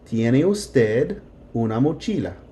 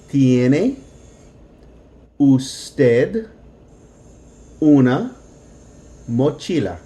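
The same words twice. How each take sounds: First: It is said a little faster. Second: It is said slowly, broken down.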